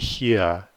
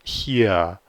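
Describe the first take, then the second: No difference in how they are said.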